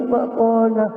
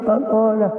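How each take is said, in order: The two takes are said the same way.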